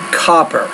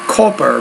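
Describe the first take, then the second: First: The first vowel is an open 'ah'. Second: The first vowel is not an open 'ah'. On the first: The speaker calls it right. "but ah, ah, copper" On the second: The speaker calls it wrong. "not copper"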